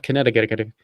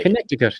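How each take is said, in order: First: Connecticut garbled into kuh-NET-a-get-a-kuh-tuh; garbled mispronunciation. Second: Connecticut as kuh-NET-ih-kut; correct pronunciation. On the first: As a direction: trip through Connecticut with extra syllables. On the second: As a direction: say Connecticut cleanly, stressed on the second syllable. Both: Shown as a demonstration. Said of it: "not Connecticut".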